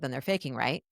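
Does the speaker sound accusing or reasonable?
reasonable. The tone is calm and reasonable. The asker is openly exploring a possibility. The speaker calls it right. "Now I sound reasonable. I'm using my normal sorry voice"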